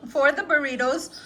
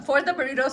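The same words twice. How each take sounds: First: Said in the usual way. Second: Talking while chewing; words around a bite of food; mouth full. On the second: Real, not acted. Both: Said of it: "I'm chewing on something".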